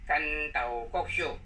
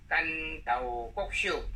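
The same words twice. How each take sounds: The two takes are said the same way.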